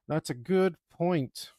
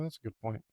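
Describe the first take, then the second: First: Higher, louder and slow, leaning on good; emphatic. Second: Said in the usual way. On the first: Acted. Mocking the kid's remark, slow emphatic stress on good. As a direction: drag out That's a good point, hitting good.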